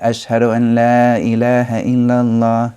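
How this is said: It is said out loud in full voice.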